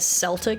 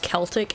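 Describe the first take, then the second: First: The word begins with an S sound. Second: The word begins with a K sound.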